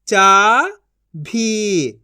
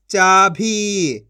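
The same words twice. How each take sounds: First: चाभी split into चा, pause, भी; syllable by syllable. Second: चाभी as one joined word; long चाभी, falling at the end; blended reading. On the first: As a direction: sound out चाभी in two syllables. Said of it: "एक एक अक्षर का उच्चारण करके". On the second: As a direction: join चा and भी. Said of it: "इनको आपस मिला के पढ़". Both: Shown as a demonstration.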